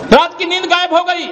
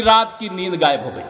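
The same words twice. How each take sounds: First: Raised, projected rally cry; ringing repeat. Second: Lower, falling end to the jibe; low punchline. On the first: Speaker mocking the chief minister's lost sleep, raised and ringing. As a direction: fling the jibe out to the crowd. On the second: Speaker mocking the chief minister's lost sleep, low and falling. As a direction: drop the voice as the punchline lands. Punchline about rival, then repeated. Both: Real, not acted.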